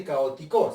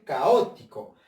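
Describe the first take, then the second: First: "caótico" mis-stressed as ca-o-ti-CÓ; wrong version of "caótico", accent landing on final "co". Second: "caótico" correctly stressed as ca-Ó-ti-co; "caótico" with the accent on its second syllable, ó. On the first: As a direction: lean on the last syllable of "caótico". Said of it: "No se dice caótico". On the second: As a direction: slowly lean on the "ó" of "caótico", then fall. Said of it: "se dice caótico". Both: Shown as a demonstration.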